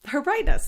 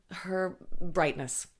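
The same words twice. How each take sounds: First: Her brightness, higher and louder; emphatic repeat. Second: Said in the usual way. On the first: Shown as a demonstration. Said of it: "that's what it is". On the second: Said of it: "Her brightness, that's what it is".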